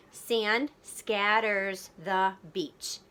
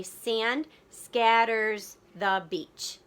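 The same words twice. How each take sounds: First: Very slow, each syllable separated; deliberate beat-by-beat reading; counting beats. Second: Very slow, syllable by syllable; slow syllable-counting read; counting beats. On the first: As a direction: tap out the beats with your voice. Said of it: "count the beats of the words". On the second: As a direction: stretch every beat so kids can count. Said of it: "So I would say". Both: Shown as a demonstration.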